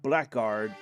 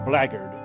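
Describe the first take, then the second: First: The word is said the way it looks. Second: The word is said the British way. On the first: "You would think blackguard" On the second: "British uh, Commonwealth pronunciation. You know, London based are saying blackguard"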